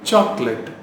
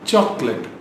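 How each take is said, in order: First: The last syllable sounds like 'let'. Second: The last syllable sounds like 'let'.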